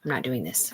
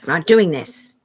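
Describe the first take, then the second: First: Low, quiet first refusal; low and soft, drawing back. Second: Louder repeat, putting the foot down; loud and final on doing; firm loud refusal. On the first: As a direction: say it under your breath, backing off. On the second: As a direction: insist this time, voice raised. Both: Retold or imitated. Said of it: "that was me saying".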